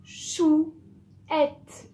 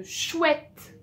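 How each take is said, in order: First: "Chouette" split into chou, ette, louder and higher; syllable by syllable. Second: Said in the usual way. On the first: Shown as a demonstration. Teacher models reading a new word, "Chouette" in separate syllables. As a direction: sound out "Chouette" as two drawn-out beats, chou-ette. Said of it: "Première syllabe. Deuxième syllabe".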